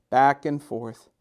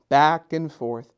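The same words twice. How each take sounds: The two takes are said the same way.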